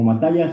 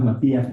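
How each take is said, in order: First: The name is said as 'Matallas'. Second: The name is said as 'Matías'. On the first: This is how another person says it. "lo pronuncia como Matallas" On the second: This is how it is said in Mexico. "en México pues le decimos Matías"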